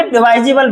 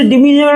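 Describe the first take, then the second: First: "डिवाइजिबल" with a long "vai" glide, "di-VAI-zi-bal"; correct pronunciation. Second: "डिविजिबल" with short i in the second syllable, "di-VI-zi-bal"; wrong pronunciation. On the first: Teacher correcting students' reading, "डिवाइजिबल" pronounced with "vai". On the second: Teacher showing students what not to say, "डिविजिबल" mispronounced with "vi". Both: Shown as a demonstration. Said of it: "इसे डिविजिबल नहीं बोलेंगे".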